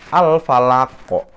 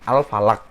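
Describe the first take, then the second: First: The final consonant ends with an echoing bounce. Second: The final consonant stops flat with no echo. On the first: The speaker calls it right. "maka dia bacanya adalah al-falako" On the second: The speaker calls it wrong. "Yang salah al-falak. Itu salah"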